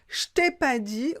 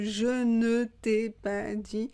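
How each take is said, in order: First: The ne is dropped from the phrase. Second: The ne is clearly said in the phrase. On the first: "le ne a disparu" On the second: "au lieu de"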